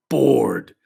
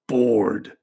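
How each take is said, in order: First: Bored said again, a bit louder and falling; emphatic repeat. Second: Said in the usual way. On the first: Shown as a demonstration. Therapist stressing Joe's boredom, bored hit harder. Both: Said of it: "repeated word".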